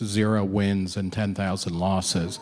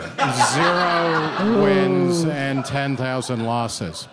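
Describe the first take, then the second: First: The phrase is spoken at a normal pace. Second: The phrase is spoken at a slow pace.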